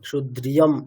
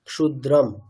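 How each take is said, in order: First: A 'y' sound is inserted after the 'dr'. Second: No 'y' sound is heard after the 'dr'. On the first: The speaker calls it wrong. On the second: The speaker calls it right.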